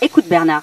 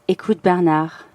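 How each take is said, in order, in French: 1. Elle est dite avec une voix simple et ordinaire. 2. Elle est dite avec une voix sensuelle et séduisante.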